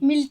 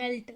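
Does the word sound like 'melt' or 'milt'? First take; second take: milt; melt. First: The vowel sounds like the 'i' in 'milk'. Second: The vowel sounds like the 'e' in 'bed'. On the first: The speaker calls it wrong. "మిల్ట్ కాదు" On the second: The speaker calls it right.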